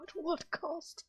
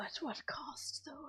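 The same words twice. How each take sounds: First: Slow, much higher theatrical cry; dramatic. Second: Slow breathy whisper, higher; hushed ominous whisper. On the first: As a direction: overblown melodramatic question. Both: Pretend. Dramatic repeat.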